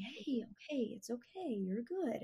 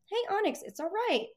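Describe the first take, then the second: First: The calm way to reassure the nervous dog. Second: High, excited dog praise; the first, excited way to soothe the dog; happy, high-pitched. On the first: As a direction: settle her down gently and softer. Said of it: "then I started to be calm". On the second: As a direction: lift the voice up high to cheer her. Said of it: "kinda happy, high-pitched". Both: Shown as a demonstration.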